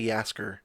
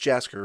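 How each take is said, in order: First: The name begins with a Y sound. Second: The name begins with a J sound. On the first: The speaker calls it wrong. "Part of me kept wanting to say" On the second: The speaker calls it right. "but it's"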